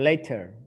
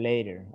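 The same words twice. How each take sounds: First: It is said with a British accent. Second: It is said with an American accent. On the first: "Or later, if it's British" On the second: "Or later, American"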